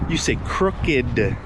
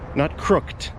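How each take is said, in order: First: The ending is a separate 'id' syllable. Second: The ending is a single 't' sound. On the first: The speaker calls it right. "But for crooked, you say crooked" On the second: The speaker calls it wrong. "Sometimes the ED ending on a word can make the sound t"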